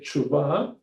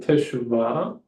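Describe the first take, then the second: First: The first vowel is dropped, running the consonants together. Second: Every syllable is pronounced fully, including the first vowel.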